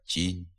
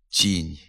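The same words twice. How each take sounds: First: The soft t is plain with no hiss. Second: The soft t has a hissing ts-like sound. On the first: The speaker calls it right. "треба вимовляти" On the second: The speaker calls it wrong. "вимовляються зі свистячим відзвуком"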